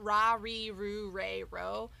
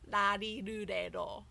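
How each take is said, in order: First: Each syllable starts with an English-like R sound. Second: Each syllable starts with a tongue tap like L/D. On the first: The speaker calls it wrong. "it's not ra, ri, ru, re, ro" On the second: The speaker calls it right. "If you're touching your tongue to the roof of your mouth"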